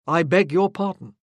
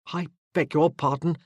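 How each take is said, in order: First: Louder, clipped-in-tone formal sorry; offended officer coldly repeating his apology; stiff apology. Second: Quick, hurried sorry; officer quickly backing down from Morgan; hasty apology. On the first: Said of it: "he said again stiffly". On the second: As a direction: rush out the apology. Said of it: "he said hastily". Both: A narrator's reading.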